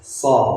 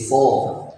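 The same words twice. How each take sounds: First: The sound has a normal, moderate heaviness. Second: The sound is thick and heavy. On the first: "yang biasa ya so ... itu cukup" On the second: "kalau yang tebal ya tadi so"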